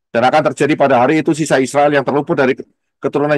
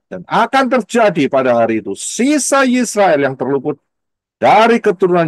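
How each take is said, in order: First: It is read fast with flat intonation. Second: It is read slowly with lively intonation. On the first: The reader misses the meaning of the text. The speaker calls it wrong. "apalagi bacanya nggak ada intonasinya, cepat ada yang cepat aja yang baca" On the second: The reader grasps the meaning of the text. The speaker calls it right. "kalau saudara bacanya pelan-pelan, ... dikasih intonasi"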